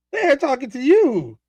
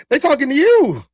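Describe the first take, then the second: First: Slow repeat. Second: Calling out. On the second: Calls out chat to a viewer. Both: Real, not acted.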